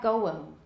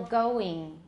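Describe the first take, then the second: First: The ending vowel sounds like a short ih. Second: The ending vowel sounds close to ee. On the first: The speaker calls it wrong. "Going sounds really wrong" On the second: The speaker calls it right. "the vowel in the English ing ending sounds more like E"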